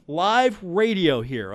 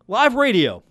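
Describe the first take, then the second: First: Slowed down. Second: Mock exasperated. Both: Real, not acted.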